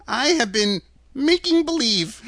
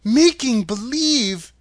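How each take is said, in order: First: Put-on high, tittering old-man confession; timid, giggly little fellow; sheepish little man. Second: Put-on higher, louder, slow girl's question; stretched, high-pitched disbelief; incredulous cry. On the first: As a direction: own up meekly in a high voice. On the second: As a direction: cry it out as an astonished girl. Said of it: "cried Dorothy". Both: A narrator's reading.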